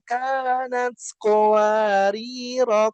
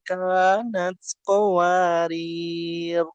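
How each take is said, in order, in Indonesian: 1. Kata itu berakhir dengan vokal a pendek di akhir. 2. Kata itu berakhir pada r tanpa vokal akhir. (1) "kalau di eh, wasalkan dibaca pen pendek" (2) "Itu kalau diwakafkan gitu ya"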